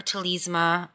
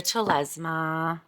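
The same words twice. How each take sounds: First: Telesma with a long ee, "teh-LEEZ-muh"; long-e pronunciation. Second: Telesma with a short e, "teh-LEZ-muh"; short-e pronunciation. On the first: Reviewer offering the other reading, Telesma said "teh-LEEZ-muh". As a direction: say the middle of Telesma like "lees" with a z. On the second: Reviewer naming the tarot deck, Telesma said "teh-LEZ-muh". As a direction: stress the middle of Telesma, rhyming it with "Lez". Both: Shown as a demonstration. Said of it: "everybody says it different".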